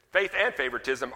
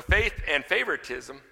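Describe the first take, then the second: First: AND punched between the two nouns; stress on AND. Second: FAITH leads the phrase; stress on FAITH. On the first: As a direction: hit the word "and" in the middle. Repeats phrase, stressing the joining word. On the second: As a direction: put the weight on "faith". Repeats phrase, shifting the stress. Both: Shown as a demonstration.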